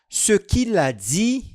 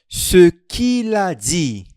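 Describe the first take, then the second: First: It is said at normal speed. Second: It is said more slowly.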